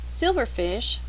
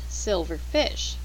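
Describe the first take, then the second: First: The stress is on the first part, silver. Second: The stress is on the second part, fish. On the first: It names a kind of insect. "A silverfish is a kind of insect" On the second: It means a fish that is silver-colored. "a silverfish is a fish that is silver-colored"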